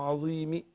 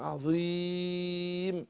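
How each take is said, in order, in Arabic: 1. يُسمع رَوْم خفيف، أي كسرة خفيفة متبعّضة بعد الميم. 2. المدّ يُوسّط، والميم في الآخر ساكنة. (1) "بالرام ... اختلس حركة الكسر" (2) "التوسط"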